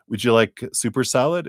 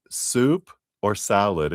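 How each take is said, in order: First: Rattled off quickly as one blurred phrase, soup or salad; imitating a rushed waitress, words run together; waitress reels off soup or salad fast to the young brother; fast waitress question. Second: "Soup or salad?" slowed, each word set apart; imitating the waitress repeating it slowly and clearly; waitress repeats the choice slowly so the kid gets it; slow, separated soup or salad. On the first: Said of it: "The waitress said it really fast". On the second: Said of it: "And she goes".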